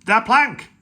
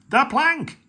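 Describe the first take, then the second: First: Loud, high pirate yell; loud pirate yell demanding the plank. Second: Even higher, loud repeated yell; higher repeated pirate yell for the plank. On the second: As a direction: push the chant up a step. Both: Acted. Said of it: "yelled Ben Buckle and Percy Patch".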